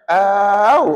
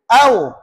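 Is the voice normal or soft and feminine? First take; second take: soft; normal. First: The voice is made soft and feminine. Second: The voice is kept at its normal tone. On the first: The speaker calls it wrong. "jangan suara perempuan lembut pula" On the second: The speaker calls it right. "suara maintain lah macam biasa"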